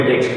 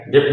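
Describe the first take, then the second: First: डेट with no B sound; silent B. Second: डेप ending on a lip sound; wrong silent-letter pronunciation. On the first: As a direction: end डेट straight on the t. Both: Shown as a demonstration. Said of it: "डेप नहीं बोलेंगे".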